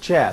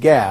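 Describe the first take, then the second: First: The consonant is a soft j sound. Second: The consonant is a hard g sound. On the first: "rather than jim, it's or ja" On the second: "Sometimes it's pronounced like ga"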